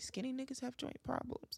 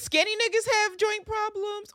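First: It is said at a calmer volume. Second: It is yelled loudly.

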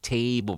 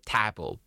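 First: The first vowel glides as a diphthong. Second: The first vowel is a plain, unglided vowel. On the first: "to learn to speak table probably" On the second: "we don't have the A in Mandarin, so we have A. So we are more like to say table"

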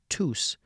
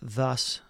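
First: The word begins with a hard t sound. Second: The word begins with a th sound. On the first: "It's also not a hard, really hard T" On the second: "So it's not thus"

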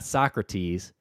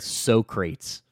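First: The name is said Sock-ra-tees, three syllables. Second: The name is said like So-crates, two syllables. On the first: This is the usual pronunciation. The speaker calls it right. "not Socrates" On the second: This imitates a coworker's mispronunciation. The speaker calls it wrong. "He said Socrates"

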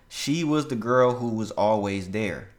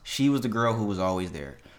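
First: It is read at a normal pace. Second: It is read a little faster.

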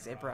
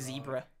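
First: The word is said the Australian way. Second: The word is said the American way. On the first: "They say zebra" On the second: "They don't say zebra"

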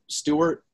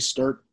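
First: The name sounds like Stuart, with an extra vowel. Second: The name sounds like Sturt, without an extra vowel. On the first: This is the official way the name is pronounced. "it's pronounced like Stuart, like if there were an A" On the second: This is a simpler way used when ordering food. "I literally just say Sturt"

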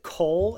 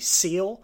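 First: The word begins with a K sound. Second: The word begins with an S sound. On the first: The speaker calls it wrong. "most people pronounce it coal as short for C-O-E-L in the game, but they're wrong" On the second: The speaker calls it right. "If they really want to say it correctly, it'd be seal"

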